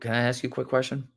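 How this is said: It sounds hesitant and low in energy. The caller seems unsure and easy to dismiss. The speaker calls it wrong. "this guy sounds lame"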